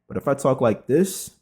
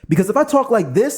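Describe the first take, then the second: First: It is said low and serious. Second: It is said with high, lively energy.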